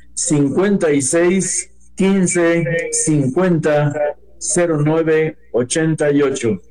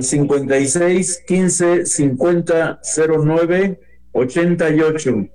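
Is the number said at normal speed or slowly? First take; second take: slowly; normal speed. First: The number is said more slowly. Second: The number is said at normal speed.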